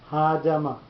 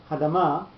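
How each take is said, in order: First: The first syllable is stressed as well. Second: The first syllable is unstressed and reduced. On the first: The speaker calls it right. "The Ha gets pronunciation and the Ma gets pronunciation" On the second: The speaker calls it wrong. "You don't lose the entire first syllable with no pronunciation to it, with no emphasis on it"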